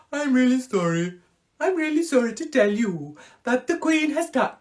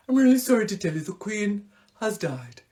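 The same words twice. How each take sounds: First: High, loud mock Punjabi accent newsreader. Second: A hint of a solemn Welsh newsreader. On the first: As Hugh Edwards breaking the Queen's death, a hammed-up Punjabi accent. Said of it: "That's a bit Punjabi". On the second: As Hugh Edwards breaking the Queen's death, lightly voiced solemn newsreader. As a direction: read the sad news gravely. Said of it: "he's like".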